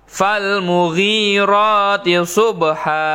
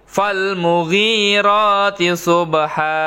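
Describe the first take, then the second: The two takes are said the same way.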